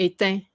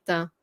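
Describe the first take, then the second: First: Éteint with the firmer Quebec French ending; firm Quebecois final vowel on éteint; Quebecois accent. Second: Éteint with a softer French Canadian ending; soft French Canadian final vowel on éteint. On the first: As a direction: say éteint as in Quebec, more firmly. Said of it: "if I was in Quebec". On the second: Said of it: "so more softer way". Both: Shown as a demonstration.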